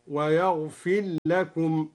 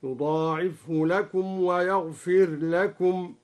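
First: Slow chanted "ويغفر لكم", ر absorbed into a doubled ل; ra merged into lam. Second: Slow chanted recitation, ر in "ويغفر لكم" sounded clearly; clear unmerged ra. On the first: Sheikh demonstrates al-Duri's reading, "ويغفر لكم" with ر merged into ل. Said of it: "قرأ بالإدغام والإظهار في الراء". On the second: Sheikh demonstrates al-Duri's reading, clear ر in "ويغفر لكم". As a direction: recite "ويغفر لكم" slowly, keeping the ر distinct from ل. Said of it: "قرأ بالإدغام والإظهار في الراء هكذا". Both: Shown as a demonstration.

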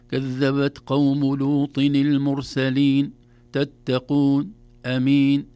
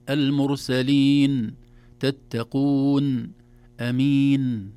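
First: "المرسلين، تتقون، أمين" with the ن cut off abruptly; loud recitation, stopping dead on each final ن; chopped final ن. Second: "المرسلين، تتقون، أمين" with the ن sounded briefly, not cut; slow, loud recitation letting each ن finish naturally; balanced final ن. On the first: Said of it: "ولا نبترها بتر". ("المرسلين، تتقون، أمين" ببتر النون) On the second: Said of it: "لا نبالغ في زمن النون". ("المرسلين، تتقون، أمين" بنون معتدلة) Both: Shown as a demonstration.

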